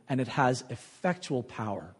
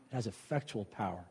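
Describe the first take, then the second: First: Said in the usual way. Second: Much softer, lower repeat; hushed echo. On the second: Acted. Preacher echoing scripture's power to the congregation, hushed. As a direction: drop to a near hush to drive it home.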